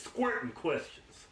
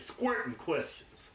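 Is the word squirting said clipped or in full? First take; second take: clipped; clipped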